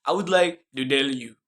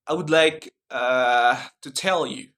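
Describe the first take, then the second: First: Indian accent with D for T. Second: American accent, clear T in "tell". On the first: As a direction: imitate an Indian accent, "to tell" as "do dell". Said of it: "but in Indian accent". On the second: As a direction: demonstrate an American accent with a hesitation. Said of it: "Like in American accent". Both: Shown as a demonstration.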